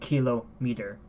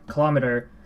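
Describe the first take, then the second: First: It is said like two separate words joined. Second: It is said as one single word. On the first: The speaker calls it wrong. "taking two different words and then lumping it together" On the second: The speaker calls it right. "Instead of saying kilometer"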